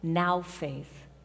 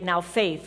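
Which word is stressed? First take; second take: now; faith. First: The stress is on now. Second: The stress is on faith.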